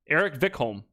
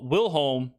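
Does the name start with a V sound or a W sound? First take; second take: V sound; W sound. First: The name starts with a V sound. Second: The name starts with a W sound.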